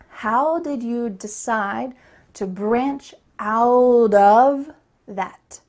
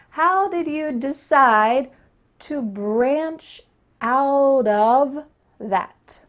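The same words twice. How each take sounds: First: 'How did' is said fully and clearly. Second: 'How did' is said fully and clearly.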